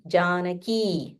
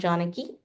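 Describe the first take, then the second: First: The final vowel is held long. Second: The final vowel is cut short. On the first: The speaker calls it right. "This is um, Dirga. So you have to say ki" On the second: The speaker calls it wrong. "not Janaki"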